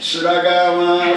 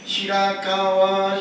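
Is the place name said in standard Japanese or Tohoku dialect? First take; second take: Tohoku dialect; standard. First: It is said in Tohoku dialect as Suragawa. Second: It is said in standard Japanese as Shirakawa. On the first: "アナウンスメントが違うんですよ" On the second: "白川と言うべきところね"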